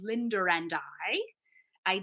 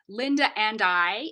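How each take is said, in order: First: An R sound links the two vowels. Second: A glottal stop separates the two vowels, no R. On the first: "becomes Linder and I" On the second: "I would say Linda and I in my accent"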